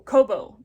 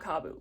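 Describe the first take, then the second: First: The first vowel sounds like 'oh'. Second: The first vowel sounds like 'ah'. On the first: The speaker calls it right. "Kobo, not Kabu" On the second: The speaker calls it wrong. "not Kabu"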